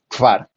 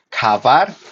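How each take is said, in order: First: K and v are said together with no vowel. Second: An a vowel is inserted between k and v. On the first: The speaker calls it right. "aquí la pronunciación es kvar. Nuevamente" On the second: The speaker calls it wrong. "ni kavar"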